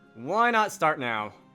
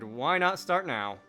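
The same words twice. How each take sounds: First: The line sounds strongly annoyed. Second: The line sounds only mildly annoyed. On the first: The speaker calls it right. "Can I make that even more annoyed sounding?" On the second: The speaker calls it wrong. "I really do imagine him sounding as annoyed as humanly possible"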